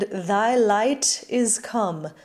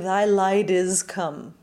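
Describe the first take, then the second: First: The T in light is strongly aspirated. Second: The T in light is soft, unaspirated. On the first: The speaker calls it right. "This wet T is also applicable" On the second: The speaker calls it wrong. "as opposed to"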